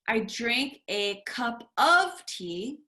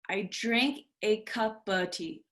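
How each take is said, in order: First: The word 'of' is said with a full vowel. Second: The word 'of' is reduced to a quick 'uh'. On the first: The speaker calls it wrong. "instead of saying" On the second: The speaker calls it right. "we just say uh"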